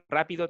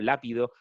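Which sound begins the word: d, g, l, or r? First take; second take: r; l. First: The word begins with a trilled r sound. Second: The word begins with an l sound. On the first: "si tú le dicen rápido"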